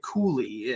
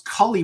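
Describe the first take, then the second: First: The first vowel is long, as in 'cool'. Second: The first vowel is short, as in 'cull'. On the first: This is how others actually say the name. The speaker calls it right. "they're pronouncing it Cooley" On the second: This is how the speaker first assumed it was said. The speaker calls it wrong. "I thought it was Cully"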